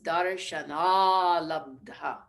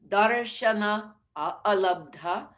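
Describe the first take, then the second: First: The words merge into one long a sound. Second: The words stay apart, each with its own a.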